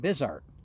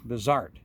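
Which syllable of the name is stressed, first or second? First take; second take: first; second. First: The stress is on the first syllable. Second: The stress is on the second syllable. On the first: The speaker calls it wrong. "with an emphasis on the first syllable" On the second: The speaker calls it right. "once I pronounced it correctly"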